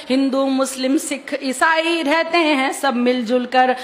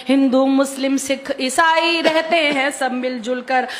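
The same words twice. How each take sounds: The two takes are said the same way.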